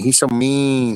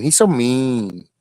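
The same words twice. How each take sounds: First: Said in the usual way. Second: Put-on slow, pouty baby voice; mock whiny. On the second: Teasing Mayhem in a pouty baby voice. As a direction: drag it out like a sulking child.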